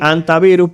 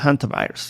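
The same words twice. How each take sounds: First: The initial H is silent. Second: The initial H is breathed aloud. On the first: This is the Spanish pronunciation. "la H es muda" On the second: This is the English pronunciation. "en inglés suena más chulo"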